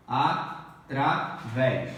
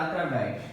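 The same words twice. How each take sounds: First: "Através" slow and lower, in separate syllables. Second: Said in the usual way. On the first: Shown as a demonstration. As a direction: pause between the syllables of "Através". ("Através" devagar, sílaba por sílaba) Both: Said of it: "Faça a separação silábica".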